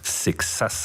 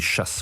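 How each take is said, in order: First: The name is said with a French pronunciation. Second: The name is said with a Portuguese pronunciation. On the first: This is how people in France say it. "Sexas en France" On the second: This is how people in Portugal say it. "Chasse au Portugal"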